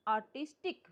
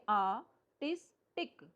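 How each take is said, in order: First: Said in the usual way. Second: आर्टिस्टिक broken into आ, टिस, टिक; split in three. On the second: Shown as a demonstration. Teacher reading out a transcription, syllable by syllable. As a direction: pause between the syllables of आर्टिस्टिक. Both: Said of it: "तीन part बोले हमने".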